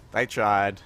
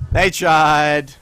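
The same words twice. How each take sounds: First: Said in the usual way. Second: Loud, dramatic mock tribute; hammed-up eulogy for the losers; They tried, proclaimed loud and mocking; mock solemn. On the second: Mocking the enemy's failed fight.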